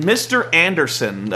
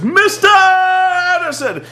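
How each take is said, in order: First: Said in the usual way. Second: High, slow booming ring announcer call; hammed-up entrance call; announcer shout. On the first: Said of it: "the guy goes, "Mister Anderson!". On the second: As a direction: bellow the name like an arena announcer. Announcer calling entrance name.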